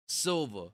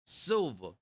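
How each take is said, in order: First: Silva in a hood accent; lightly hood-accented Silva. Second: Silva in a New York accent; lightly New York-accented Silva. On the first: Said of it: "in a hood way". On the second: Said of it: "like in a New York out, accent". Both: Shown as a demonstration.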